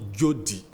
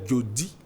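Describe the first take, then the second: First: The stress is on the first syllable. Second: The stress is on the last syllable. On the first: It is the common noun meaning provision or gift. "l'accent tonique tombe toujours à l'avant-dernière syllabe" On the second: It is used as a person's first name. "l'accent tonique change de place"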